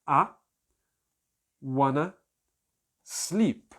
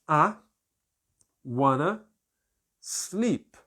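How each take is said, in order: The two takes are said the same way.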